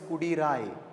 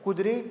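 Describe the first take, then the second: First: The word is said as kudirai. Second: The word is said as kudre. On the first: The speaker calls it wrong. "It is not to be pronounced as Kudirai" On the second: The speaker calls it right. "it's supposed supposed to be pronounced as Kudre Chetti"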